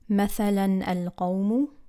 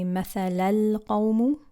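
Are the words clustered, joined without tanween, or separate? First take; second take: separate; no tanween. First: The two words are said separately, unconnected. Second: The words join smoothly with the tanween dropped. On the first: "there's no connection there" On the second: "we would be taking out the tanween"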